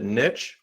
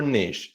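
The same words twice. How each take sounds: First: "niche" with short i and tch ending; American-style "nitch" for "niche". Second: French-style "neesh" for "niche". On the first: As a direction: say "niche" to rhyme with rich. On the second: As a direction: say "niche" to rhyme with leash. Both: Shown as a demonstration. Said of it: "do you pronounce it".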